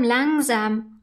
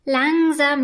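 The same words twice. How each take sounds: First: Calming. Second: First „Langsam“ said louder; interrupting. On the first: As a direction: ease off on the second „langsam“. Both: A narrator's reading. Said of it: "unterbricht Flöckchen".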